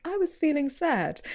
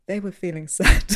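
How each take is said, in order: First: High, unraised confession in imitation; mock-earnest interviewee, pitched up; imitated interviewee. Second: Louder presenter's echo, breaking into a laugh; imitated presenter. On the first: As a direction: quote a guest in a lifted, plaintive pitch. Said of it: "Or someone says". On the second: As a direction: restate it as a mock narrator, firmly. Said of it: "they'll come in and be like".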